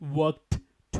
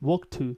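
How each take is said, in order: First: The d and t are both pronounced separately. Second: The d and t merge into one sound. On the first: The speaker calls it wrong. "Not ওয়াকড টু" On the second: The speaker calls it right. "Make it one"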